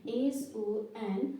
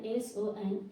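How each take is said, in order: First: Each letter stretched out slowly; drawn-out dictation of the letters; slow spelling. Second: Said in the usual way. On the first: Shown as a demonstration. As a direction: spell it slowly for the class to copy. Teacher spells letters for class.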